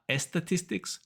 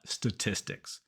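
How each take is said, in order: First: Estatistics with an E before the S; wrong extra E. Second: Statistics starting straight on S, no E; correct initial S. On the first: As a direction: put an "es" at the front, as the mistake. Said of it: "not estatistics". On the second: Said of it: "it starts with just S". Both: Shown as a demonstration.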